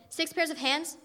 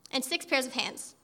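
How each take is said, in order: First: Disbelieving question rising on pairs; "Six pairs of hands?" asked with a rising, doubtful lift; incredulous echo. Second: Flat, slower statement that falls at the end; slow, settled listing of hands; matter-of-fact list. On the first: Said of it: "The angel shook her head slowly and said". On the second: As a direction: state it calmly, as a given. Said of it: "And God said". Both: A narrator's reading.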